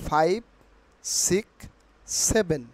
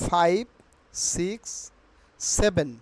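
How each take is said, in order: No difference in how they are said.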